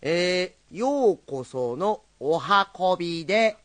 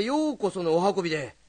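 First: Slow, drawn-out storyteller greeting; slow rakugo opening. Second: Hurried storyteller greeting; rushed rakugo opening. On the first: Slowed-down rakugo greeting, retried after being told to go slower. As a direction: savor each word of ようこそのお運びで. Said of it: "最初からもう一遍。". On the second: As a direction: rush through ようこそのお運びで. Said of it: "もっとゆっくり。". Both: Shown as a demonstration.

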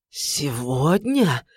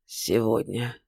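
First: Slow lower disbelieving echo; stunned echo. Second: Much lower and softer, each word dropped like a stone; weighty and heavy. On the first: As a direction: repeat it in dread. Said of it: "переспросил царь". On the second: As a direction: roll the words like heavy stones. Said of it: "проговорил веско, тяжело, словно камни перекатил". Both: A narrator's reading.

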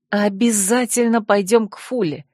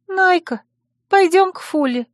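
First: Enthusiastic agreement. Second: High-pitched, plaintive begging; plaintive plea. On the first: Heroine pulls her friend to the door, agreeing enthusiastically. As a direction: agree readily, with understated eagerness. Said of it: "с энтузиазмом кивнула я". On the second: Worried friend asks the heroine to see Fula, plaintively. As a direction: beg her in a small high voice. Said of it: "жалобно попросила она". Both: A narrator's reading.

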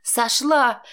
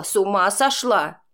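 First: Yelled back. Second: A startled, falling question; aunt recoiling from her niece: shocked question. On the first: To her aunt, throwing it back: furious yell. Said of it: "проорала я". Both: A narrator's reading.

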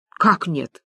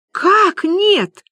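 First: Understated, falling disbelief; puzzled question. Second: High, loud cry of disbelief; astonished. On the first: Friends all ask Люба about the bank, puzzled. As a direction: ask it low-key, taken aback. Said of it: "хором спросили подруги". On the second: Люба hears the signature is denied, astonished. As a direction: burst out, pitch leaping up. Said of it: "поразилась Люба". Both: Acted.

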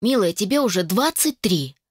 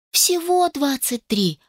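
First: Said in the usual way. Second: "всего" lifted high and drawn out slowly, correcting; stress on всего. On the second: Acted. Daughter correcting her mother, stressing "всего". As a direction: lean hard on "всего", slow and high. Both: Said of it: "поправила её".

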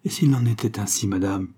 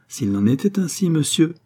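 First: Restrained defiant challenge, falling at the end; a touch of exasperation, not raised; beside himself. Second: Raised, stately retort; dignified, majestic. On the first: Raoul challenges the lady, mildly beside himself. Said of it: "s'écria Guérac hors de lui". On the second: Lady rises to answer her suitor, dignified. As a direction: echo the challenge back, higher and haughty. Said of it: "digne et majestueuse". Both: A narrator's reading.

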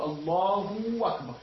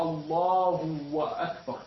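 First: "الله أكبر" said slowly as "Allahuuw-akbar"; added waw. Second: "الله أكبر" very slowly as "Allahu wa akbar"; drawn-out "الله", then an extra "wa"; added voweled waw. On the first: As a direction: stretch the end of "الله" into a long extra w. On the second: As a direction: insert a full "wa" and keep the glottal stop of "أكبر". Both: Shown as a demonstration. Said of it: "إذا زاد واوا".

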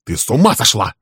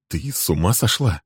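First: Loud, alarmed «Ты с ума сошла?»; louder, panicked «Ты с ума сошла?» falling on «ума». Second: Said in the usual way. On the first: Acted. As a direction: hit «ума» hard in alarm.

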